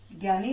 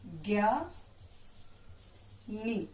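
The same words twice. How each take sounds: First: Said in the usual way. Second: ज्ञानी stretched very slowly and softly; drawn out slowly. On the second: Shown as a demonstration. Teacher drawing out ज्ञानी for pupils to copy. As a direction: sound out ज्ञानी slowly for the class. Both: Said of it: "अब इससे बने शब्द देखिए".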